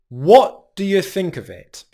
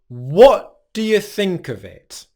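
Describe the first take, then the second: Both takes have the same delivery.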